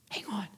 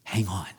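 First: Soft whisper. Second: Said in the usual way. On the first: Real, not acted. Pastor whispering Hang on to a hurting listener. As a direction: Hang on whispered, much softer, breathy.

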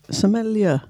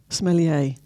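First: Sommelier said the English way, ending "-ler"; English pronunciation. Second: Sommelier said the posh French way, ending "-lay"; French pronunciation. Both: Shown as a demonstration. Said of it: "it's a bit posher".

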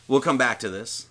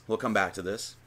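First: Said in the usual way. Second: Softer, lower repeat of We'll come back to this; quiet aside. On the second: Real, not acted. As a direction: mutter the repeat to yourself.

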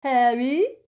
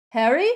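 First: Loud, high mimicked call; mocking mimicry. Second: Loud, high questioning shout; shouted call. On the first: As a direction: mimic his call to jeer at him. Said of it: "mimicked Crabbe". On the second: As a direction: call to a friend through a wall. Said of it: "shouted Ron again". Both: A narrator's reading.

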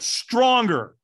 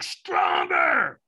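First: Loud, higher urging; imitated coach's raised command; trainer's demand. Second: Loud, high, rough scream; imitated trainer's full-on scream; screamed command. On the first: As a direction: push the trainee for more. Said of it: "he went". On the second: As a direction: scream it at a trainee to demand more. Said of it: "he screamed at me".

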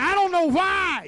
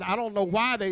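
First: High, loud, drawn-out wail of bafflement; preached-up exasperation; exasperated preacher's cry. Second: Said in the usual way. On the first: Acted. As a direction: cry it out slowly to the congregation. Preacher voices exasperated parents, worked up.

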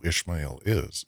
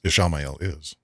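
First: "Ishmael" in two beats, ISH-mail; mispronounced name. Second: "Ishamael" with the middle "a" sounded, i-SHA-mail; corrected name. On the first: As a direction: say "Ishmael" without the middle "a". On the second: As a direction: say "Ishamael" in full, stressing "sha". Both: Real, not acted. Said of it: "saying his name wrong now".

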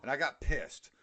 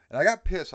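First: Said in the usual way. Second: Higher and louder, GOT pushed hard; emphatic repeat. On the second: Real, not acted. Repeating how angry he got at work, louder. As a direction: hit "got pissed" with heat. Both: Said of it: "I'll tell you why I got pissed".

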